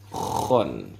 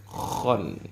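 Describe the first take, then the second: Both takes have the same delivery.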